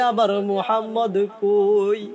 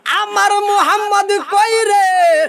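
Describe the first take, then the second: First: Understated plaintive asking; subdued searching plea; restrained tearful question. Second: High, ringing chant of anguish; impassioned searching wail; wailing cry. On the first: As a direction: ask with grief held back, at speaking pitch. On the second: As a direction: cry out for the missing child at high pitch. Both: Acted. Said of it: "কান্দে আর কয়".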